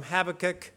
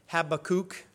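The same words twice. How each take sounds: First: Habakkuk with short, unstressed last syllables; Habakkuk as HAB-uh-kuk, short ending; usual pronunciation. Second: Habakkuk ending in a long "kook"; alternative pronunciation. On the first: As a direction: say Habakkuk ending in a quick "kuk" like "cook" reduced to "kək". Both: Shown as a demonstration. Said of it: "as some people like to say it".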